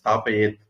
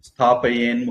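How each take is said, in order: First: The word ends with a t sound. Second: The word ends with an n sound. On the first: It is read as a separate word. "பிரிச்சு படிக்கிறதுனால ஸ்தாபயேத் அதுதான் original வார்த்தை" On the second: It is read joined to the next word. "சேர்த்து படிச்சா அப்படி வரும்"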